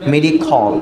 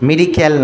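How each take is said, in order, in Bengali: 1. শেষাংশটি 'khol'-এর মতো শোনায়। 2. শেষাংশটি 'kal'-এর মতো শোনায়। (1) "উচ্চারণটা মেডিখল" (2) "মেডিক্যাল না"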